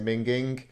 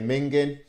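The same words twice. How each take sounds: First: The final g sound is pronounced. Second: The final g sound is dropped. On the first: This is how speakers elsewhere say it. "some people might say minging" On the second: This is how northern speakers say it. "we tend to miss the G off the end. We here say minging"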